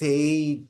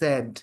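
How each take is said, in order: First: The vowel is a long 'ay' sound. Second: The vowel is a short 'e' sound. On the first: The speaker calls it wrong. "S A I সেইড" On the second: The speaker calls it right. "the actual pronunciation is স্যাড"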